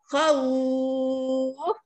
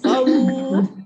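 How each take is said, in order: First: The vowel is lengthened for six counts. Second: The vowel is lengthened for two counts. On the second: "khawf boleh dua empat enam"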